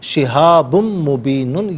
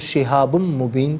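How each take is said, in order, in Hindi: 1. अंतिम शब्द पूरी '-un' ध्वनि के साथ खत्म होता है। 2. अंतिम शब्द '-un' के बिना अचानक रुक जाता है।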